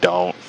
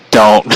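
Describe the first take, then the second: First: "Don't." said again, softer and dropped; a soft "Don't." recalled after the laugh; soft repeat. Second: A firm, louder "Don't." cutting him off; a firm retold "Don't." to the old friend; blunt refusal. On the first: Retold or imitated. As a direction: repeat "Don't." quietly, almost to himself. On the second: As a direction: shut the idea down with a firm "Don't.". Friend suggests polygamy, blunt refusal.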